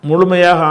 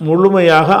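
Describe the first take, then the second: The two takes are said the same way.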